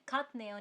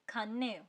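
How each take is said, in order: First: A t sound is heard before the n. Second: An n sound replaces the t. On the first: The speaker calls it wrong. "आप उसे खात्नेय नहीं पढ़ोगे" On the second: The speaker calls it right. "आप उसे पढ़ोगे खान्नेय"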